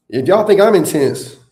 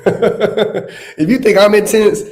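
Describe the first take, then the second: First: Said in the usual way. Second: Laughing. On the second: Real, not acted. Repeats line, laughing through it.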